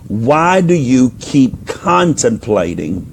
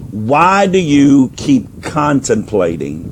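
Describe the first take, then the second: No difference in how they are said.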